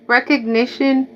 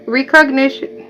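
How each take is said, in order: First: Recognition said as "reck-ug-nish-un", with a short e in the first syllable; carefully fix it to "reck-og-nition"; corrected recognition. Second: Recognition said as "ree-cognition", with a long ee in the first syllable; mispronounced recognition. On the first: Shown as a demonstration. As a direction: recognition with reck at the start, the standard way. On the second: Real, not acted. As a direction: slip into "ree-cog-nish-un" without meaning to. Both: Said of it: "Why do I keep saying it wrong?".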